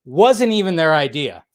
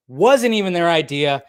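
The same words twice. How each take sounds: The two takes are said the same way.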